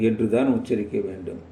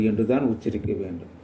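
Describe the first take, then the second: The two takes are said the same way.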